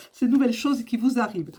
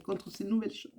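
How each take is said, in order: First: Said in the usual way. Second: Voix coupée par le hoquet; hiccuping. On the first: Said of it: "Pardon, excusez-moi". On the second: Real, not acted. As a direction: parler entre deux hoquets. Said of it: "j'ai le hoquet". (avec le hoquet, voix étouffée)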